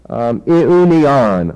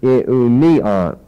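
First: Iunion said slowly, syllable by syllable, accent on one syllable; first accent option. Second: Iunion said at normal speed, accent moved to another syllable; other accent option. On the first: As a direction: draw out Iunion slowly, testing where the accent falls. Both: Shown as a demonstration. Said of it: "putting the accent on the last or the next to last syllable".

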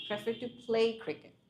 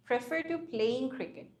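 First: Very slow, deliberate "play" without -ing; corrected form with PLAY. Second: "playing" said slowly with its -ing ending; wrong form with PLAYING. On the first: Teacher correcting the student's verb form, deliberate "play". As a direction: model "play" slowly and clearly. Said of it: "সেটার সাথে ING হবে না". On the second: Teacher repeating the student's grammar slip, slow "playing". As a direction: quote the mistake "playing" slowly. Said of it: "to এর পরে কিন্তু আমরা ING দিচ্ছি না". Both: Shown as a demonstration.

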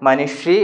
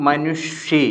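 First: മനുഷി with no v-glide before the final long i; മനുഷി in the corrected form, without the v sound; correct pronunciation. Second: മനുഷി drawn out syllable by syllable, with a wrong v-glide before the last vowel; മനുഷി said slowly with the faulty glide; common mispronunciation. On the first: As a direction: model മനുഷി cleanly, ending on a long i. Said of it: "എന്ന് പറയുന്നതാണ് ശരിയായ പ്രയോഗം". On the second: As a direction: show the mistaken way many say മനുഷി, slowly. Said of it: "പല ആളുകളും പറഞ്ഞ രീതി ഏതാണ്". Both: Shown as a demonstration.

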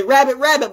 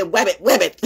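First: "Rabbit, rabbit" with a clear R at the start; Lil King/private. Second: "Web it" for rabbit, R turned into W. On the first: Retold or imitated. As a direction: say "Rabbit, rabbit" high, R pronounced. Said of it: "as Lil King would say". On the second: Shown as a demonstration. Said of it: "but I would say".

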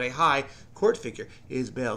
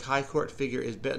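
First: "high", slight break, then "court figure" as one unit; "high" set apart, stress on "court"; regrouped phrase. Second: Said in the usual way. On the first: Shown as a demonstration. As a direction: separate "high" from "court figure" to clarify the meaning. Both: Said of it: "Not the high court".

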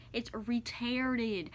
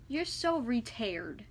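First: Retarded said slowly and clearly, every syllable given; correct word. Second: Retired read slowly, stretched, mocking the misspelling. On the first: Correcting a hater's spelling, retarded said slowly. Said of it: "not retired". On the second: Mocking a hater's typo, retired said slowly. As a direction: drag out retired as if quoting the typo. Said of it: "you do not know how to spell things right". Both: Shown as a demonstration.

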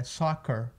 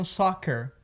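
First: "soccer" ending in a curled UR; som de UR. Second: "soccer" with an E in the final syllable; pronúncia errada. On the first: Shown as a demonstration. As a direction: finish "soccer" softly on UR. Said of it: "com aquele U R no final". ("soccer" com UR no final) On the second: Retold or imitated. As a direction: imitate the learner's mistaken ending of "soccer". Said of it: "as pessoas às vezes pronunciam soccer". ("soccer" com E no final)

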